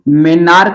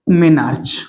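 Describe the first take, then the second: First: The word ends with a 'k' sound. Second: The word ends with a 'ch' sound. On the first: "इसको मेनार्क भी बोलते हैं।" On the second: "इसकी answer हो जाएगा मेनार्च बोलेंगे हम लोग।"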